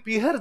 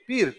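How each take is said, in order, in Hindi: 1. बीच की ह ध्वनि बोली जाती है। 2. बीच की ह ध्वनि छूट जाती है। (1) "आप कब कहते हो कि मम्मी पीहर जाकर आती है?" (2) "यदि बीच में है आए किसी अक्षर के, ये बोले नहीं जाते।"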